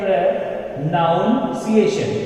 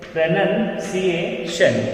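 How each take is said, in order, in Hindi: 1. दूसरा अक्षर 'noun' जैसा सुनाई देता है। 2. दूसरा अक्षर 'nun' जैसा सुनाई देता है। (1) "लेकिन ये प्रोनाउंसिएशन नहीं है" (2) "इट्स करेक्ट उच्चारण इज pronunciation"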